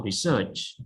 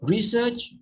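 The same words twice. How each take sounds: First: "research" with the second syllable stressed; stress on SEARCH. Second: "Research" with the first syllable stressed. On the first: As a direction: put the weight on SEARCH in "research". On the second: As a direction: hit RE at the start of "Research". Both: Shown as a demonstration. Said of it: "stress on search or stress on re".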